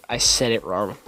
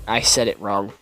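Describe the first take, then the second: The two takes are said the same way.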